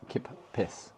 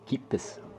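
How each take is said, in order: First: The first vowel is short, like 'kip'. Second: The first vowel is long, like 'keep'. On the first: The speaker calls it wrong. "I was doing more of a kip" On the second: The speaker calls it right. "people were saying it's more keep"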